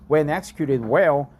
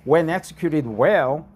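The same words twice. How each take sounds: The two takes are said the same way.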